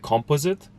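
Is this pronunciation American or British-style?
British-style. It is said in a British-style accent. This is how it is said back home. "we say composite"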